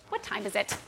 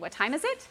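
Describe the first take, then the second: First: The pitch falls at the end. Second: The pitch rises at the end. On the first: It implies something beyond a plain question. "you can ask it with a down inflection, like" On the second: It is a plain question. "our inflection goes up at the end"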